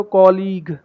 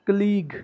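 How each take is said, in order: First: कॉलीग with an open 'aw' first syllable, KAW-leeg; full O vowel opening कॉलीग; common mispronunciation. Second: कलीग with a short uh first syllable, kuh-LEEG; correct pronunciation. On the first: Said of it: "कुछ बोलते हैं इसको कॉलीग". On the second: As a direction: stress the second syllable of कलीग. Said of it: "correct pronunciation इसकी कलीग". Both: Shown as a demonstration.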